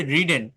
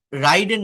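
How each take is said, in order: First: রিডেন with "ri", not "rai"; careful model of ridden as রিডেন; correct short i. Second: রাইডেন with an "ai" as in ride; higher-pitched wrong example, রাইডেন with gliding vowel; wrong long i. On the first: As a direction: say রিডেন with a short first vowel. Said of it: "আমি আবারও বলছি রিডেন". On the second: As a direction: say রাইডেন as "rai-den", pitched up. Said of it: "এটা রাইডেন না". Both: Shown as a demonstration.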